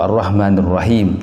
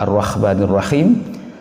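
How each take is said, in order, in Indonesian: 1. Bunyi h itu adalah h yang ringan dan berdesah. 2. Bunyi h itu adalah bunyi kh yang serak. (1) "atau huruf H" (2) "tertukar pada huruf Kha"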